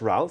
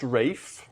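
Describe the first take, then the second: First: The name has a short vowel and an L. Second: The name rhymes with safe, with no L. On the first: The speaker calls it wrong. "not Ralph" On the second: The speaker calls it right. "it's pronounced Rafe"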